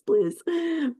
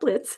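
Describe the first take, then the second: First: The name ends with a buzzing 'z' sound. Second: The name ends with a sharp 'ts' sound. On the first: The speaker calls it right. "It's Blizz" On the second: The speaker calls it wrong. "it's not Blitz"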